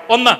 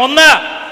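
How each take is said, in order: First: Said in the usual way. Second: Raised, firm prompt to the crowd; louder count. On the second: Shown as a demonstration. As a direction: call out the number to draw a louder response. (ഉറക്കെ എണ്ണി വിളിക്കുക) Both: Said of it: "ഇച്ചിരി ഉറക്കെ പറയണം".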